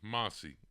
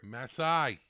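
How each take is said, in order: First: The name is said as Massey. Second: The name is said as Masai.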